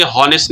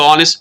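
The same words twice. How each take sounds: First: हॉनेस्ट with a breathy h sounded at the start; wrong sounded h. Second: ऑनेस्ट with the h dropped, starting on the vowel; ऑनेस्ट without h; silent h. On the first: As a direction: say हॉनेस्ट as "honest" with the h. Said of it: "हॉनेस्ट नहीं पढ़ेंगे". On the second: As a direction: say ऑनेस्ट as "onest". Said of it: "एच जो है इसमें silent है". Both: Shown as a demonstration.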